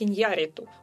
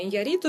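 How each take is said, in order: First: The stress falls on the Spanish accented syllable. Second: The stress follows the usual Russian placement.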